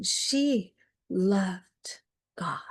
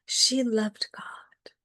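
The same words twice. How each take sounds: First: She loved God, whispered slowly with weight on she; slow whispered repeat. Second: She loved God, whispered again, a bit quicker, she stressed. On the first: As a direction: linger on each word, barely voiced. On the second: Repeated line, echo. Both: Acted.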